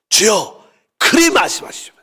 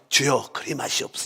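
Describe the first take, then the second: First: It is said angrily with a raised tone. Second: It is said calmly and politely.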